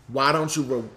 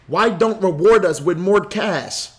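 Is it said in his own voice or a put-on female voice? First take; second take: own voice; female voice. First: It is said in his normal voice. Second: It is said in an imitated woman's voice.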